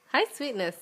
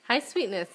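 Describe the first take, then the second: No difference in how they are said.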